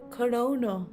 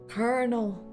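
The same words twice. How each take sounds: First: It is said as spelled, without an R. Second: It sounds like kernel, with an R sound. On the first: The speaker calls it wrong. "Not colonel. Even though it's spelt clearly as colonel" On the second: The speaker calls it right. "I always need to think about popcorn when I say this word"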